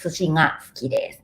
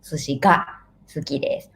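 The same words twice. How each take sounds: First: "ga" said as a nasal "nga"; "ga" with ng as in singer; eastern nasal ga. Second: "ga" with a hard stopped g; "ga" as in Western Japan; western strong ga. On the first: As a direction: soften the g of "ga" into ng. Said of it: "I'm from eastern part of Japan". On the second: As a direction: keep the g of "ga" firm, not nasal. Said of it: "Strong ga". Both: Shown as a demonstration.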